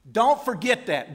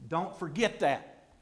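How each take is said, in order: First: Don't forget that punched out loud; louder preaching. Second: Said in the usual way. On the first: Shown as a demonstration. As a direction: hammer it home to the congregation.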